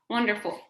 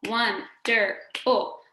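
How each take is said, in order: First: Said in the usual way. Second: "wonderful" in three slow beats, won - der - ful; "wonderful" slowly chopped, won, der, ful; split into syllables. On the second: Shown as a demonstration. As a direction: clap out "wonderful" with a gap after each syllable. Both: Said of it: "Finally, three syllables".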